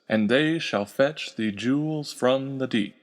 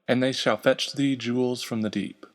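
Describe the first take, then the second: First: Every stressed syllable is heavily emphasized. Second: The line is read with a natural rhythm.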